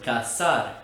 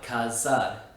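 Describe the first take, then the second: First: The middle consonant is a hissing s sound. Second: The middle consonant is a buzzing z sound. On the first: The speaker calls it right. "is also pronounced with an S sound" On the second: The speaker calls it wrong.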